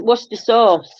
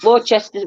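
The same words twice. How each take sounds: First: Worcester sauce said as WUSS-ter sauce; correct pronunciation. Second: Worcester said as wor-chester; spelling pronunciation. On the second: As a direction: read Worcester letter by letter, WOR-CHES-TER. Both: Shown as a demonstration. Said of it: "I've been told that's Worcester sauce".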